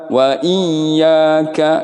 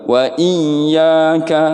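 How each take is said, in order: No difference in how they are said.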